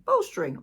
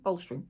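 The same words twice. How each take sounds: First: BOLSTERING pitched high and loud; emphatic correction. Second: Said in the usual way. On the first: Real, not acted. Tarot reader fixing her word, BOLSTERING said emphatically. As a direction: punch out BOLSTERING, much higher and louder.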